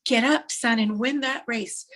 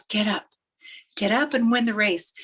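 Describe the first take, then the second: First: Acted heartfelt rallying cry from a father; every ounce of emotion. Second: Restrained call of encouragement; mildly acted rallying words; urging dad. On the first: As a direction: cry out, then drive each word home. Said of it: "with every ounce of emotion he can". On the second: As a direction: urge him on without shouting. Dad's call, milder take.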